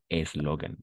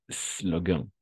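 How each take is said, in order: First: An extra vowel sound comes before the s. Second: The word begins directly with the s sound. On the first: The speaker calls it wrong. "tendemos como hispanohablantes a introducir una E ahí" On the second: The speaker calls it right. "Vamos a comenzar la palabra por la S misma"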